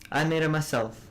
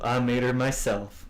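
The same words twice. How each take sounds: First: It is said in a put-on regional accent. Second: It is said in a plain, generic voice. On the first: "Think of a Scottish accent" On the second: "That sounded"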